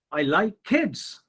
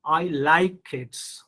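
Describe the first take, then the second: First: Put-on slow, with "kids" pitched up then falling; stress on KIDS. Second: Slow, drawn-out "like"; stress on LIKE. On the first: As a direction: save the emphasis for the last word, "kids". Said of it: "So I'm giving stress on kids". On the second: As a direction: put the feeling into "like", let "kids" drop. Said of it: "giving stress or emphasis on your emotion". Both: Shown as a demonstration.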